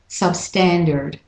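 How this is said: It is said in an American accent.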